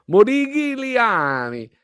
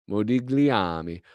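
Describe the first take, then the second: First: Sung, operatic Modigliami, high and stretched; Modigliami sung high and slow. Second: Said in the usual way. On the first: Pretend. Sung flourish on name. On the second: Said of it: "trying the name".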